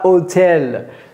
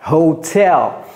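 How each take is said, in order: First: It is said the French way without an h. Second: It is said the English way with an h. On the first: The speaker calls it wrong. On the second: The speaker calls it right.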